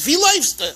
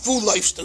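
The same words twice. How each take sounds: First: "Wie" said as "vee", higher-pitched Galician Yiddish; Polish Galician accent. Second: "Wo" said as "voo", Russian-style Yiddish; Russian accent. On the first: Teacher corrects to the rebbe's Polish Galician accent. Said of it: "uh, Polish Galician accent". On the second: Teacher shows the version not to use, Russian accent. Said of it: "is the Russian accent". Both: Shown as a demonstration.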